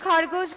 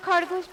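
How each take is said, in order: Both takes have the same delivery.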